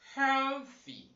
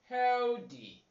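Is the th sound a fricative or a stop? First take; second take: fricative; stop. First: The th is a voiceless dental fricative. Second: The th is not a voiceless fricative. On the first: The speaker calls it right. "You should say" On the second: The speaker calls it wrong. "Do not say"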